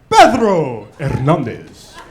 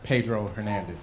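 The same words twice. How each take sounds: First: The name is said with a Spanish accent. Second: The name is said with an English accent. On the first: The speaker calls it right. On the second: The speaker calls it wrong.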